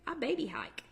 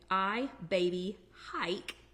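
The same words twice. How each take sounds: First: It is said quickly in a southern accent. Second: It is said slowly and clearly.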